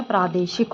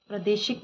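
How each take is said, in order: First: "प्रादेशिक" with long "praa"; correct long first vowel. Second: "प्रादेशिक" said "pradeshik" with short pra; wrong short first vowel. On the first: Teacher gives the correction, long "praa" in "प्रादेशिक". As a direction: stretch प्रा in "प्रादेशिक". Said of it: "होता है". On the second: Teacher rejects the mistake, short "pra" in "प्रादेशिक". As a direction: clip प्रा in "प्रादेशिक". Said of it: "नहीं होता है". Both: Shown as a demonstration.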